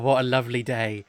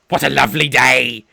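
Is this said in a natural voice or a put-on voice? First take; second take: natural; put-on. First: It is said in a natural, relaxed voice. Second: It is said in a strained, put-on character voice.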